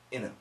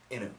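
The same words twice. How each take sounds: First: The T sound is dropped, sounding like inu. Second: The T sound is dropped, sounding like inu.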